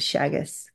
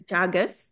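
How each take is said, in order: First: The name begins with an sh sound. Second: The name begins with a j sound. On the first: The name as an Australian colleague pronounced it. "it was the Australian way of saying it" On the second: The person's actual name. "His name was Jagus"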